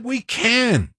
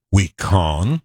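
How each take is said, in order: First: "We can" pitched high, can rhyming with "man"; correct flat-A can. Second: "We con", with can turned into an open-vowelled "kahn"; mock mispronounced can. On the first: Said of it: "He said". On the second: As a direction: say "We con" low, rhyming with "on". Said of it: "He didn't say". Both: Shown as a demonstration.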